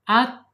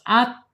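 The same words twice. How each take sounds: No difference in how they are said.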